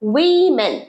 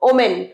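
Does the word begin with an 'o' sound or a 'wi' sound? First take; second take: wi; o. First: The word begins with a 'wi' sound. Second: The word begins with an 'o' sound. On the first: The speaker calls it right. "এটা হচ্ছে উইমেন" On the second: The speaker calls it wrong. "আমরা বলি ওমেন"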